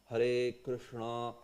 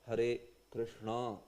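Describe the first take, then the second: Both takes have the same delivery.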